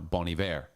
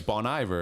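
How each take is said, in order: First: The name is said with French-style pronunciation. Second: The name is said with English-style pronunciation. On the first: The speaker knows the insider pronunciation. The speaker calls it right. "they say it's actually pronounced" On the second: The speaker reads the name as it looks. The speaker calls it wrong.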